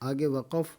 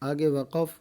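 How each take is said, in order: The two takes are said the same way.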